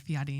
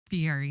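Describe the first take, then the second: First: Second Fieri with a tapped R, like "fee-EH-dee"; corrected pronunciation. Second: Said in the usual way. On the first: Shown as a demonstration. Podcaster recalling a comedian correcting people, Fieri said as "fee-EH-dee". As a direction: make the R in Fieri a quick D-like tap. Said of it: "instead of Fieri". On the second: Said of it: "correcting people when they say".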